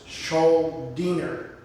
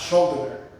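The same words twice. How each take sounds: First: The ending sounds like 'deener'. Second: The ending does not sound like 'deener'. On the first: The speaker calls it right. "But it's [name]. ... [name]" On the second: The speaker calls it wrong. "That's just how I thought it was pronounced"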